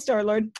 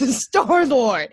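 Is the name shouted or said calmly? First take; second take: calmly; shouted. First: The name is said in a calm, casual voice. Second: The name is shouted with high energy. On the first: The speaker calls it wrong. "You couldn't be like" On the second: The speaker calls it right. "But you'd have to say it like that"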